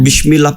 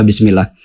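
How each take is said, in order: First: The consonant after 'bi' is an sh sound. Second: The consonant after 'bi' is a plain s sound. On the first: The meaning changes to sin. The speaker calls it wrong. "bismillah pakai shim itu udah dosa artinya" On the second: It means in the name of God. The speaker calls it right. "Bismillah itu kan sin ya"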